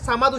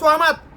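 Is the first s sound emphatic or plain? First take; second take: plain; emphatic. First: The first sound is a light, plain s. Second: The first sound is a heavy, emphatic s. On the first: The speaker calls it wrong. "আমরা অজ্ঞতাবশত আমরা জাহেলিয়াতের কারণে আমরা এখানে সামাদ উচ্চারণ করে ফেলি" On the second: The speaker calls it right. "তবে এখানে উচ্চারণ হবে সোয়ামাদ"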